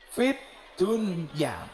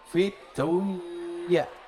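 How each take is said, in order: First: The n sound is pronounced clearly and distinctly. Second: The n sound is hidden and nasalized. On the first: Worldly affairs must be clear. The speaker calls it right. "Tapi bahasanya jelas idhar" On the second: Something is uncertain, between existing and not. The speaker calls it wrong. "Kalau dibaca infak menjadi fit dunya"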